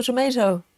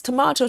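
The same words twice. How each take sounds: First: Tomato said as to-MAY-to, ay in the middle; tomato with ay, not ah; tomayto. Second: Tomato said as to-MAH-to, broad ah in the middle; tomato with a long open ah, not ay; tomahto. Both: Shown as a demonstration. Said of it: "yes, tomato, tomato".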